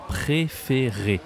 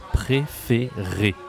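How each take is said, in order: First: Slow "Préféré" with closed é sounds; careful teaching voice; slow model word. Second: Very slow "Préféré", each é closed; teacher spelling out the sounds slowly; slow demonstration. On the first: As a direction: draw out "Préféré" for the learner. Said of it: "La voix est un peu aiguë". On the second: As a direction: stretch out "Préféré" syllable by syllable. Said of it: "Ça se dit et". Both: Shown as a demonstration.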